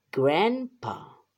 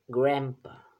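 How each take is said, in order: First: "grandpa" stretched out, loud, both syllables separated; emphatic teaching model. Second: Said in the usual way. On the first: Shown as a demonstration. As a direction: say "grandpa" slowly and firmly, GRAND... PA. Modelo enfático para repetir otra vez. ("grandpa" enfático, fuerte y marcando cada sílaba)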